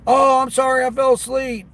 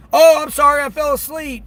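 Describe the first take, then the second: First: High, louder mock excuse; mocking customer. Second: High, louder whiny mock excuse; mocking customer. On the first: Driver repeating the no-tip customer's excuse in a mocking voice. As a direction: mimic the sleepy apology again. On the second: Driver mocking a no-tip customer who overslept, high mock whine. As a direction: mimic her lame apology.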